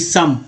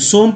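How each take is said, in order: First: The vowel sounds like 'uh'. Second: The vowel sounds like 'oh'. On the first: The speaker calls it right. "ओ को आ पढ़ रहे हैं सम" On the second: The speaker calls it wrong. "सोम सोम नहीं"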